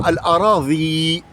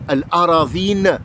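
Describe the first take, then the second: First: Al-Aradhi said without the final n; wrong pronunciation. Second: Al-Aradhin said slowly with a clear final n; correct Arabic pronunciation. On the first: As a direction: drop the n in Al-Aradhi. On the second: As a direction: stretch Al-Aradhin and land on the final n. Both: Shown as a demonstration. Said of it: "et non pas Al-Aradhi".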